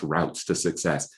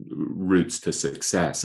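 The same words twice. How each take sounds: First: ROUTES said like "routs", American way; American pronunciation. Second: ROUTES said like "roots", British way; British pronunciation. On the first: Author correcting himself for American listeners, ROUTES pronounced as "routs". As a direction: say ROUTES to rhyme with shouts. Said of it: "I apologize for my English accent". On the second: Author slipping into his English pronunciation of ROUTES as "roots". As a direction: say ROUTES to rhyme with boots. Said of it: "I should be saying one of the best routes to success". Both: Shown as a demonstration.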